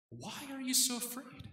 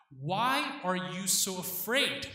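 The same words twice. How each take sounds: First: Why are you so afraid? lifted higher and softer, wondering; inner question. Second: Slow, searching Why are you so afraid?, each word weighed; probing question. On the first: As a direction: ask Why are you so afraid? high and soft, as if to oneself. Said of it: "so that Peter could think". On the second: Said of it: "That's what he's asking". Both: Retold or imitated.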